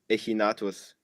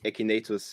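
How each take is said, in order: First: The name is said with Latin-style vowel sounds. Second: The name is said with English vowel sounds.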